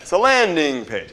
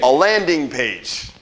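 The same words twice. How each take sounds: First: Said in the usual way. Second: "landing page" said slowly, stretching "landing"; drawn-out landing page. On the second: Shown as a demonstration. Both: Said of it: "You gotta say it like that".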